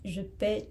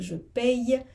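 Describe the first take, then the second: First: The verb ends with a plain vowel sound. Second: The verb ends with a y-glide sound. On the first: "à la version deux, on dit je paie" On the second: "avec le Y, on dit je paye"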